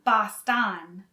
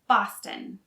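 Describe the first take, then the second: First: The second vowel is pronounced fully. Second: The second vowel is barely pronounced. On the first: The speaker calls it wrong. "so it's not Boston" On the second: The speaker calls it right. "The second O is not really pronounced"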